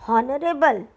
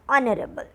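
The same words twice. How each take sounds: First: The word begins with an h sound. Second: The word begins without an h sound. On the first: The speaker calls it wrong. "We don't pronounce it honorable" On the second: The speaker calls it right. "the correct pronunciation is honorable"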